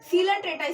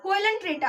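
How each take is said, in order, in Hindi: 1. शब्द 'see' ध्वनि से शुरू होता है। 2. शब्द 'koy' ध्वनि से शुरू होता है। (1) "इसमें ओ साइलेंट रहता है। सीलंट्रेटा इसे पढ़ा जाता है।" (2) "बट ये कोयलेंट्रेटा नहीं है"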